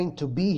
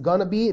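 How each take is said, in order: First: Both words are pronounced fully and separately. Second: The two words blend into one short word.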